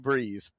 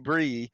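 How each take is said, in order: First: The name ends with a buzzing z sound. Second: The name ends on an open ee vowel. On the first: This is how people south of the border might say it. "this side of the border, it might be" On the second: This is how French Canadians might say it. "if you're on that side of the border in French Canadian, it could be"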